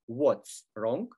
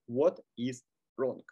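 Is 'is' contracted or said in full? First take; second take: contracted; full. First: The verb is contracted onto 'what'. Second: The verb is said as a full word. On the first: "носители английского языка любят все сокращать" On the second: "расшифровки этих сокращений"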